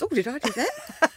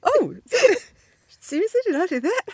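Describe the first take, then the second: First: Higher, innocent little "did I do that?"; lightly voiced caught-out dog; sheepish dog. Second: Much higher and louder, squealing disbelief; hammed-up shocked surprise; mock astonished. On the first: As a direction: play the guilty dog pretending it wasn't him, pitched up. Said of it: "You know when a dog farts and it goes". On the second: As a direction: gasp it out like you can't believe what you made. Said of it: "I was like".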